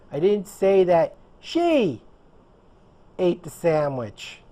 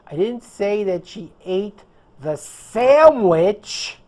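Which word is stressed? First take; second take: she; sandwich. First: The stress falls on the word she. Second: The stress falls on the word sandwich. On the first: Someone else ate it. "I said that someone else did it" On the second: She ate something else. "I said that she ate the pizza or something else"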